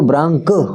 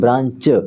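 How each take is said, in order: First: The word ends with a k sound. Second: The word ends with a ch sound. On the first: "अगर हम ब्रांच को ब्रांक पढ़ने लगे" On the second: "चा बोलते हैं"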